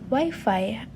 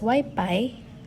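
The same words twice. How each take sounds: First: The second syllable starts with an f sound. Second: The second syllable starts with a p sound.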